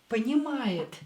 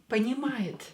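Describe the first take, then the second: The two takes are said the same way.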